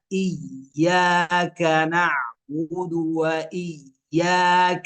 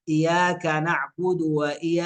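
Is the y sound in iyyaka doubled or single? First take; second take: doubled; single. First: The y sound is doubled and held. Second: The y sound is single and light. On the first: The speaker calls it right. "الياء حرف مشدد فنقرأها" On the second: The speaker calls it wrong. "يخفف الياء، يقرأها مفتوحة"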